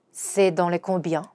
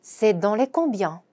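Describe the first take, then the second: First: Slow model sentence; slow repeat. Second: Slow French, "combien" stressed; careful teaching read; slow demo pronunciation. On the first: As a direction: repeat for learners slowly. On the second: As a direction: model slowly. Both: Shown as a demonstration. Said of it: "이렇게 말하는 거죠".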